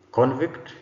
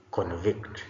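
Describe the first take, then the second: First: CONvict, higher and louder with a rising end; stress on first syllable. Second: ConVICT, weight on the last syllable; stress on second syllable. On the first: Teacher models the noun for the class, first-syllable stress on "Convict". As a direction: say "Convict" as the noun, hitting "con". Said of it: "first syllable stressed gives us a noun". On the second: Teacher models the verb for the class, second-syllable stress on "convict". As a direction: say "convict" as the verb, hitting "vict". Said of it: "second syllable stressed gives us a verb".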